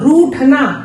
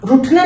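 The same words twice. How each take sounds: First: The first vowel is long. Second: The first vowel is short. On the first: The speaker calls it right. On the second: The speaker calls it wrong.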